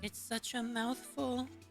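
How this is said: It sounds seductive, as if she wants it.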